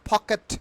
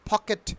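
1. প্রথম "p" ধ্বনিটি জোরালোভাবে aspirated. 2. প্রথম "p" ধ্বনিটি জোরালোভাবে অ্যাসপিরেটেড।

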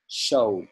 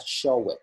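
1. Phần kết thúc chỉ là âm 'd' đơn giản. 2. Phần kết thúc là một âm tiết 'id' thêm vào. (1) "mà là showed" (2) "không đọc là show it"

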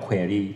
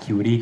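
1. คำนี้ออกเสียงแบบอังกฤษค่ะ 2. คำนี้ออกเสียงแบบไทยค่ะ (1) "จงใจอ่านว่า query เพราะจะได้เหมือนกับฝรั่งอ่าน" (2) "คำนี้จะอ่าน query ก็ได้นะครับ"

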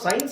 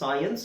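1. ಸ್ವರ ಒಂದೇ ಉಚ್ಚಾರಾಂಶದಲ್ಲಿ ಸೇರಿಕೊಂಡಿದೆ. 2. ಸ್ವರ ಎರಡು ಉಚ್ಚಾರಾಂಶಗಳಾಗಿ ಬೇರೆಯಾಗಿದೆ. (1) "ನಾವು ಸೈನ್ಸ್ ಅಂತ ಹೇಳ್ತೀವಿ" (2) "ಆಕ್ಚುಲಿ ಇದು ಸೈನ್ಸ್ ಅಂತ ಹೇಳ್ಬೇಕು"

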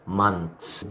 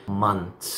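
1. يأتي صوت t مباشرةً قبل الـ s الأخيرة. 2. يأتي صوت t مباشرةً قبل الـ s الأخيرة.

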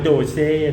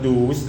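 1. อ่านสองพยางค์ คือ doh-seh 2. อ่านด้วยสระ oo คือ doos (1) "อย่าอ่านว่าโดเซ่นะฮะ" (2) "หรือไม่อ่านว่าดูส"

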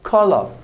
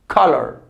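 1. Se dice con acento británico. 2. Se dice con acento americano. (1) "Británico" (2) "la pronunciación americano"

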